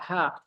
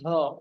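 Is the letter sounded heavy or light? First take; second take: light; heavy. First: It has a plain, light, open a vowel. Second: It has a heavy, rounded, darkened vowel. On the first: The speaker calls it right. "biasa ha" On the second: The speaker calls it wrong. "bukan ho"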